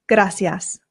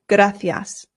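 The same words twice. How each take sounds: First: The c is said with an s sound. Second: The c is said with a th sound. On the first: This is how it is said in Latin America. "the Latin American way" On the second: This is how it is said in Spain. "here in Spain, they pronounce the C's with a th sound"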